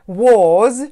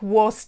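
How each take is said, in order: First: The word ends with a clear z sound. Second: The word ends with a voiceless s sound. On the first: The speaker calls it right. "wymawiamy z wyraźnym z na końcu" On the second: The speaker calls it wrong. "nie wymawiamy ich was"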